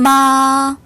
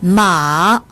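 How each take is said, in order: First: The pitch stays high and level. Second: The pitch dips low then rises. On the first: It means mother. "일성으로 발음하면 엄마란 뜻이고요" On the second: It means horse. "삼성으로 발음하면"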